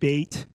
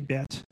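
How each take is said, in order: First: The vowel is said the Ashkenazi way. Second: The vowel is said the non-Ashkenazi way. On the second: "You'll hear me say Bet"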